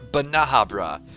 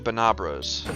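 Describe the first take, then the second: First: The name is said in its full form. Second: The name is said in a shortened form. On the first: This is the proper name. "as the correct pronunciation would probably be" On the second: This is the casual, convenient name. "we just call them Banabras for the most part in Monster Hunter, because it's more convenient"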